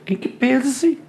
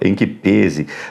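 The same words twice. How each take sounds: First: It is said in a posh, affected voice. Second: It is said in a plain, serious voice. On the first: The speaker is mocking a pretentious person. "imagina uma pessoa, em que pese, ai, professor, uma pessoa que fala assim" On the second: The phrase is used seriously. "falando sério"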